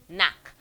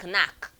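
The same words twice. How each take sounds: First: The word starts directly with an n sound. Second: The word starts with a k sound. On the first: The speaker calls it right. "The K is silent" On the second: The speaker calls it wrong. "so it's not knack"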